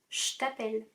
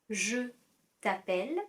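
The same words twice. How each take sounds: First: 'Je' is shortened to a 'sh' sound. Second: 'Je' is said in full with its vowel.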